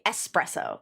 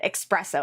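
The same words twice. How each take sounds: First: The word begins with an 'es' sound. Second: The word begins with an 'ex' sound. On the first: The speaker calls it right. "it's supposed to be espresso, like, because it's an S, not an X" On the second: The speaker calls it wrong. "that's how Americans say it"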